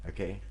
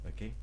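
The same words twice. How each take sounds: No difference in how they are said.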